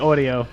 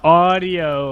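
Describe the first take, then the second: First: It is said with a New York accent. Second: It is said with a General American accent.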